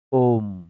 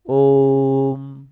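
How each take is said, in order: First: Said in the usual way. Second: ओम with the vowel held very long and slow; drawn-out pluta Om. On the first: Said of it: "कई जगह ऐसे लिखा जाता है". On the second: Shown as a demonstration. Teacher shows students the pluta vowel, slow drawn-out ओम. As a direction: stretch ओम far past a long vowel, like a chant. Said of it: "ओम ऐसे बोलते हैं".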